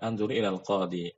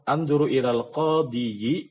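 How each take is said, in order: First: The last word ends in a short plain 'i'. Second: The last word ends with a full 'yi' syllable. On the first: The speaker calls it right. "kita sukunkan aja" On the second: The speaker calls it wrong. "ini berat sekali"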